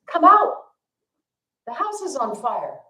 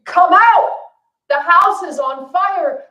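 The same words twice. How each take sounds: First: Put-on a high call for the kids to come out; calling into the house, raised but not full force; parents yelling. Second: Much higher and louder, slow desperate scream; parents screaming. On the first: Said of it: "they're yelling for the kids". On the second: Retold or imitated. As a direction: scream it to save your kids. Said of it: "this time they're really screaming".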